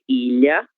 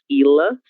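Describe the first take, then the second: First: The middle consonant is a palatal LH sound. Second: The middle consonant is a plain L sound. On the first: The speaker calls it right. "sino que ilha" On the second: The speaker calls it wrong. "Não é ilha"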